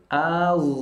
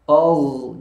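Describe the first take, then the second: First: The vowel is thin, a clear a. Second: The vowel is thick, sounding like o. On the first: The speaker calls it right. "Tapi A. A tipis" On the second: The speaker calls it wrong. "Kalau A-nya jadi tebal"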